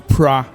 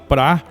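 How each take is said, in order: First: The syllable is said with an R sound. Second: The syllable is said with an L sound. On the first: "eles falam" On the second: "ao invés de falar"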